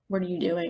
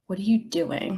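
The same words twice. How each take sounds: First: It sounds like a light, casual question. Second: It sounds like a heavy, serious question.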